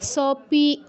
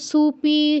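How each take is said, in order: First: The first syllable is a short sa. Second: The first syllable is su. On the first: "এগুলো বলবো না" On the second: "কেউ সুপি ... এগুলো বলবো না"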